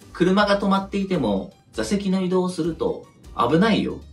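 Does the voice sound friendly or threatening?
threatening. It sounds flat, cold and menacing. It sounds like a threat of consequences. "そのアナウンスがさ"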